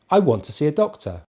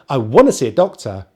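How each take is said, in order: First: Want to is said as two words. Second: Want to is blended into wanna. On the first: This is the normal, neutral way of speaking. "that's just a normal way of speaking" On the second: This is a fast, informal way of speaking. "speak really fast in maybe a, a more informal way"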